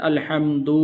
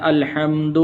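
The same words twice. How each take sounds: First: الحمد with the dal wrongly drawn out; الحمد said with an elongated dal; wrong pronunciation. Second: الحمد with a short, unlengthened dal; الحمد said crisply, no stretched dal; correct pronunciation. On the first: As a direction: stretch the dal in الحمد as if a waw followed. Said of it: "اس کو اس طرح پڑھتے ہیں". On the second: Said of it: "بلکہ اس کو پڑھنا ہے". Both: Shown as a demonstration.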